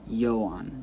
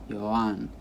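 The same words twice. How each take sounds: First: The stress is on the first syllable. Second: The stress is on the second syllable. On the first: The speaker calls it wrong. "They put the stress on the first syllable" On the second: The speaker calls it right. "The stress falls on the second syllable, which means the last syllable in this case"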